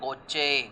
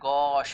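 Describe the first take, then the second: First: It is two syllables ending in 'chay'. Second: It is one syllable ending in 'sh'. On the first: The speaker calls it wrong. "It is not गोचे" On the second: The speaker calls it right. "This is pronounced as गॉश"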